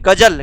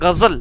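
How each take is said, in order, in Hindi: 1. यह सामान्य हिंदी व्यंजनों से बोला जाता है। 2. यह उर्दू-शैली के नुक्ता वाले व्यंजनों से बोला जाता है। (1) "इसको हम नॉर्मल पढ़ेंगे" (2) "जैसे इसमें नुक्ते का प्रयोग हुआ"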